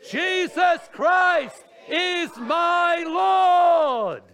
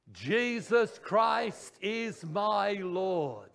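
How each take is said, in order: First: Full-force, high, slow shout; roaring, drawn-out preacher's cry. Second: Very slow speaking voice; measured, drawn-out declaration; spoken. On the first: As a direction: shout every word as long as it goes. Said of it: "We're gonna shout it". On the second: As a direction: speak it out firmly, stretching each word. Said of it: "We're gonna speak it". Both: Shown as a demonstration.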